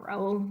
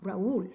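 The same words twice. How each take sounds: First: "Raúl" squashed into one syllable, "rowl". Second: "Raúl" in two syllables, stressed on the ú. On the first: Teacher shows what we don't want, "Raúl" in one syllable. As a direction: say "Raúl" as one glide, stress on the a. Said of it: "we obviously don't want". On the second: Teacher gives the wanted name, "Raúl" in two syllables. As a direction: break "Raúl" apart as ra-OOL. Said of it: "We want". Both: Shown as a demonstration.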